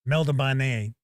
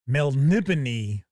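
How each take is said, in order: First: The name ends with a 'bane' sound. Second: The name ends with a 'bone' sound. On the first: The speaker calls it wrong. "for decades, I pronounced it Meldabane" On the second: The speaker calls it right. "it's Melnibone"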